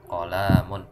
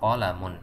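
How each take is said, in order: First: One vowel is drawn out too long. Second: All the vowels are kept short. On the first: The speaker calls it wrong. "nggak boleh qolamun" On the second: The speaker calls it right. "kita baca qolamun"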